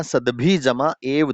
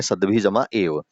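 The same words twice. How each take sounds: First: "सद्भि जमा एव" said slowly, each part separated; sandhi split. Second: Said in the usual way. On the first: Shown as a demonstration. Teacher slowly splits "सद्भि जमा एव" for students. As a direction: spell out "सद्भि जमा एव" as three pieces, slow. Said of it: "रेव का जब अलग निकालेंगे ना". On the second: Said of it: "दो संधि टूटेंगी".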